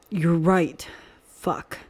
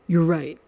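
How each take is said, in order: First: Growling voice. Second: Said in the usual way. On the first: A narrator's reading. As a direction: growl You're right, stressing right. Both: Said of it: "said with emphasis in his growling voice".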